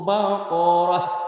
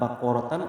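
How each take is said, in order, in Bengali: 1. শব্দটি একটি নীরব h ধ্বনি দিয়ে শেষ হয়। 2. শব্দটি একটি পূর্ণ tan ধ্বনি দিয়ে শেষ হয়।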